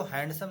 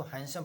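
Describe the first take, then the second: First: हैंडसम with the D sounded; the wrong reading, हैंडसम with its D voiced; D pronounced. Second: हैंडसम said as "hansam", D dropped; हैंडसम running straight from N into S; silent D. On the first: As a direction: say हैंडसम with an audible D before the S. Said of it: "इसको हैंडसम नहीं पढ़ेंगे". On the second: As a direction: say हैंडसम without any D sound. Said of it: "इसको हैंडसम पढ़ते हैं". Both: Shown as a demonstration.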